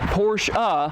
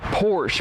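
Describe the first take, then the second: First: The name ends with a sounded final vowel. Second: The name ends without any final vowel. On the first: The speaker calls it right. "make sure that I say" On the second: The speaker calls it wrong. "and not"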